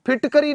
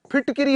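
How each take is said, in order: First: फिटकरी with a short a in the middle; wrong form said aloud. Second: फिटकिरी with a clear कि; correct form stressed. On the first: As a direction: sound out the incorrect फिटकरी. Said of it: "फिटकरी नहीं होता है". (गलत रूप फिटकरी, बीच में अ) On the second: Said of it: "फिटकिरी होता है". (सही रूप फिटकिरी, कि पर ज़ोर) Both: Shown as a demonstration.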